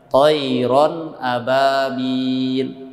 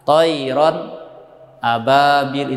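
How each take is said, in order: First: The words are joined smoothly without any break. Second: A short silent pause separates the two words. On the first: The speaker calls it right. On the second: The speaker calls it wrong.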